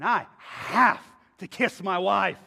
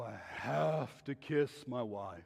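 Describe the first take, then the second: First: The voice sounds eager and keen. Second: The voice sounds reluctant and dutiful. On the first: He does it out of strong desire. "I have an internal drive that I dare you to stop me" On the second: He does it out of obligation. "One is about an external act that I just feel obligated and I have to do"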